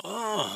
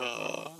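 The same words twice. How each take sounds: First: Falling "oh!" of a flower lover; delighted admiration. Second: Softer, displeased "oh!"; mock distaste at the flowers; dislike. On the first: Acted. Acting someone crazy about flowers, delighted admiration. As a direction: gush a little over the flowers. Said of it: "si on est dingue de fleurs". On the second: Acting someone who dislikes flowers, dislike. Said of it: "on n'aime pas les fleurs".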